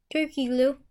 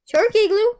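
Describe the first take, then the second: First: Said in the usual way. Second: Louder and higher, playful; loud playful repeat. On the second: Pretend. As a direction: belt out the silly name. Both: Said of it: "repeats the name twice".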